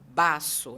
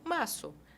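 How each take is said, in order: First: The first sound is a hard, strong b. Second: The first sound is a soft, gentle b. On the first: The speaker calls it wrong. "não é um B forte. Eu não vou falar baço" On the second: The speaker calls it right. "É suave"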